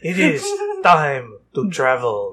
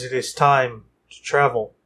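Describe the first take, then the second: First: It is said in a put-on French accent. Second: It is said in the speaker's plain accent.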